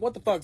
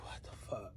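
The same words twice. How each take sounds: First: Said in the usual way. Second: Breathy half-asleep whisper; hushed groggy curse; sleepy whisper. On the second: Retold or imitated. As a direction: whisper it, barely awake. Woken in the night, confused.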